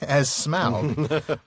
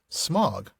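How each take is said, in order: First: The vowel sounds like the one in 'out'. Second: The vowel sounds like the one in 'smog'. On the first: "with vowels rhyming with out" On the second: "rhyming with, well, smog?"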